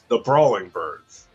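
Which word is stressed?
brawling. The stress falls on the word brawling. These brawlers happen to be birds. "it's on brawling"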